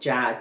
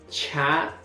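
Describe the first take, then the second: First: The ch is plain, with no extra air. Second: The ch is followed by a puff of air. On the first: "En el caso del simple" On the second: "En el segundo caso encontramos el aspirado"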